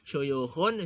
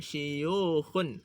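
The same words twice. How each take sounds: First: The first vowel after sh is u. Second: The first vowel after sh is i. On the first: "dengan duma shin" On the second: "ataupun kasrahnya shin"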